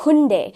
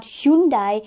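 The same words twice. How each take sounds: First: Hyundai as "hoon-day"; correct pronunciation. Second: Hyundai with Y glide and "die" ending; mispronunciation. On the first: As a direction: say Hyundai without Y, ending "day". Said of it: "it is Hyundai". (Hyundai का सही उच्चारण, "हुंडे") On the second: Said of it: "it's not Hyundai". (Hyundai का गलत उच्चारण, "ह्युंडाई") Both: Shown as a demonstration.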